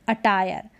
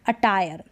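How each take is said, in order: The two takes are said the same way.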